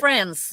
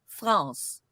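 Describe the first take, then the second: First: It is said with an English pronunciation. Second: It is said with a French pronunciation. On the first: It names the country. "when you talk about the country, ... you say France" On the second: It is the name as said in its own language. "in French it's pronounced France"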